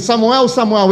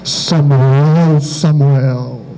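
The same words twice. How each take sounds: First: The name is called in an ordinary, everyday voice. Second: The name is called in a dramatic, solemn voice. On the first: It sounds like an ordinary person calling. The speaker calls it right. "a voz veio num tom normal" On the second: It sounds like a grand divine voice. The speaker calls it wrong. "a gente tem a tendência de colocar a entonação"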